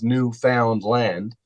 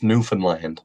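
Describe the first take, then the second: First: It is pronounced just as it is spelled. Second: It is pronounced in the local way. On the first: This is the form the spelling suggests. "if you were to, to kind of spell it out, it is Newfoundland" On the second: This is how people who live there say it. "but here locally, it's it's pronounced Newfoundland"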